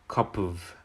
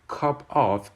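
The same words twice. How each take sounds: First: The two words are linked together smoothly. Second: The two words are said separately. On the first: "becomes cup of" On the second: "cup of becomes"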